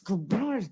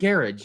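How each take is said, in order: First: It is said with an American pronunciation. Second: It is said with a British pronunciation. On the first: The speaker calls it right. "it's garage, man" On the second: The speaker calls it wrong. "they say"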